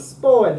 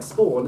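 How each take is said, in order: First: SPAWN high and loud, swooping; up-and-down pitch accent. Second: Said in the usual way. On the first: Shown as a demonstration. Teacher confirms the student's Greek word, up-and-down glide. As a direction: call out SPAWN with an arched tune. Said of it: "That's the up and down". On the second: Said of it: "It's like spawn".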